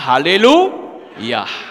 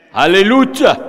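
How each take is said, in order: First: The last syllable starts with a 'y' sound. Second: The last syllable starts with a 'j' sound. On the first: The speaker calls it right. "Tapi kita tetap berkata haleluya" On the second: The speaker calls it wrong. "Dia tidak lagi panggil kata haleluya, tapi haleluja"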